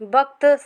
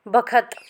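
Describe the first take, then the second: First: It is said as a short two-consonant word, vakt. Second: It is said with b and an added vowel, bakhat. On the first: This is the standard city pronunciation. "शहर में किसी शब्द को कैसे बोला जाता है" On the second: This is how village speakers say it. "गाँव की बोली में कई शब्दों के उच्चारण बदल जाते हैं"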